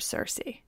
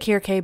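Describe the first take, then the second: First: The name is said in its English form. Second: The name is said in its original form. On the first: This is the Western English interpretation. "but I will be calling her Circe" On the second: This is the technically correct pronunciation. "it's actually Circe"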